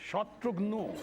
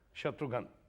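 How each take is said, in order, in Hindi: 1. नाम एक गोल 'gho' ध्वनि पर ख़त्म होता है। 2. नाम एक सादे 'ghan' ध्वनि पर ख़त्म होता है।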